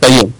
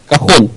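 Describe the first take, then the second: First: The middle consonant is a y sound. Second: The middle consonant is a breathy h sound. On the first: The speaker calls it wrong. "не кайон" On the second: The speaker calls it right. "Кахон, не кайон"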